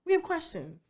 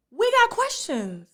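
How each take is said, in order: First: Said in the usual way. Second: WE GOT QUESTIONS stretched out slow and higher; pointed challenge. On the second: Real, not acted. Host challenging a guest's story, slow pointed "we got questions". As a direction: draw out "we got questions", pitched up. Pointed verdict on the missing details.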